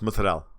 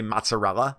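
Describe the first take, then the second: First: It is said with an Italian pronunciation. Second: It is said with an American pronunciation. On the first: The speaker calls it right. "the only words I say in Italian properly" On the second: The speaker calls it wrong. "I don't say mozzarella"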